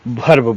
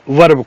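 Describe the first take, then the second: First: The word begins with a bh sound. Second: The word begins with a v sound. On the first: The speaker calls it wrong. "बचपन से उनकी आदत बन गई है भर्ब भर्ब बोलने की" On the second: The speaker calls it right. "वो सही शब्द बोलते हैं, वर्ब ही बोलना चाहते हैं"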